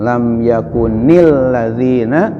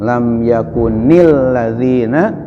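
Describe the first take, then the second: First: An 'i' vowel links 'yakun' to the next word. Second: An 'i' vowel links 'yakun' to the next word.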